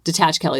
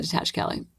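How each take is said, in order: First: Said in the usual way. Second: Whispering a calming mantra to herself; whispered mantra. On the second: Real, not acted. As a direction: whisper detach, Kelly to yourself. Self-talk mantra fades to whisper.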